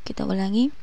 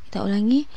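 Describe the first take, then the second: No difference in how they are said.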